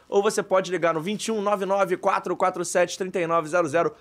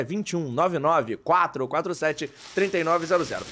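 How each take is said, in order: First: Said in the usual way. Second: Slow, over enunciating each digit; slow and clear. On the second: Shown as a demonstration. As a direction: spell out the number slowly for dictation. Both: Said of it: "Vou falar devagar pra você anotar".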